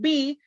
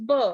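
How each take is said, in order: First: The letter is said as its alphabet name. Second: The letter is said as its spoken sound. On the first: "we are calling it B" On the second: "but its pronunciation is B"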